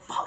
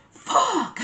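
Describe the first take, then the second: First: Said in the usual way. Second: A sudden high yell of frustration, as loud as possible. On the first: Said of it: "as loud as I could". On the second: Retold or imitated. Furious over the missing crazy breads, yelling alone behind the door. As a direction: scream it out after the door closes. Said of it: "Like, as loud as I could".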